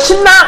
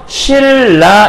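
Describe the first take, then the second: First: The middle consonant is an n sound. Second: The middle consonant is an l sound. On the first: The speaker calls it wrong. "이게 아니라" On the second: The speaker calls it right. "이렇게 발음을 하죠"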